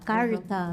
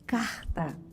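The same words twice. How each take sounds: First: The R is said with an interior São Paulo accent. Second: The R is said with a Rio de Janeiro accent. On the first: "interior de São Paulo" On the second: "no Rio é, de Janeiro"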